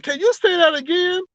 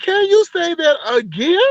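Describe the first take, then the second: First: Much higher, incredulous ask; can't believe what she just heard; shocked disbelief. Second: Much higher, voice breaking with a cry; pleading, almost in tears; near-crying disbelief. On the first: Asking Brianna to repeat the lie, incredulous and high. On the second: Asking Brianna again, disbelief tipping into a cry. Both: Retold or imitated. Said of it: "I was so shocked".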